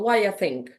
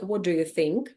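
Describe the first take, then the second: First: It is said fast with the sounds reduced. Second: Every word is said clearly and in full. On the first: "at a quick pace, it can sound" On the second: "ideally, this sentence should sound like"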